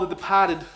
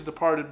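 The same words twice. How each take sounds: First: It is said in a Boston accent. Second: It is said in a standard accent. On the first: "That's my terrible Boston accent" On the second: "It's supposed to be The Departed"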